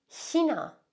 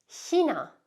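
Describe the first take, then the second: No difference in how they are said.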